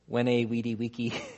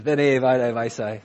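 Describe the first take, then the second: First: It is pronounced in academic Latin style. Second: It is pronounced in ecclesiastical Latin style. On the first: The speaker calls it wrong. "You do it in academic Latin" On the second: The speaker calls it right. "versus veni, vidi, visi"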